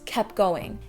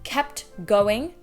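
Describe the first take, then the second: First: The T in kept is dropped. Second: The T in kept is pronounced.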